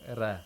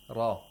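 First: The r is thin, without the tongue back raised. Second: The r is thick, with the tongue back raised. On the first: The speaker calls it wrong. "We don't say, for example" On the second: The speaker calls it right. "Ra should be pronounced with thickness"

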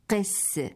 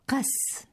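First: The first vowel is a short 'i' sound. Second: The first vowel is an open 'a' sound. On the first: The speaker calls it wrong. "لا قس بكسرها كما هو الشائع" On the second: The speaker calls it right. "بفتح القاف"

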